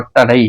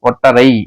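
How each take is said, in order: First: The middle consonant is a retroflex 'd' sound. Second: The middle consonant is an 'r' sound. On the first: This is the standard written form. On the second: This is how it is said in everyday speech.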